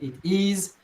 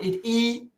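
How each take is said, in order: First: The final s sound is clearly pronounced. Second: The final s sound is dropped. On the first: The speaker calls it right. "but it is" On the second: The speaker calls it wrong. "not it e"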